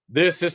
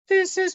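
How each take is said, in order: First: It is spoken low and resonant from the chest. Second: It is spoken high and light from the head. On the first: "this is part of my chest voice" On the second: "That's head voice"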